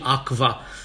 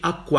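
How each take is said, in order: First: The qu is pronounced like kv. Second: The qu is pronounced like kw. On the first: This is how it is said today. The speaker calls it wrong. "nu putea fi quam, quam și aqua, cum zicem azi" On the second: This is how it was said in ancient times. The speaker calls it right. "ci quam, quam și aqua"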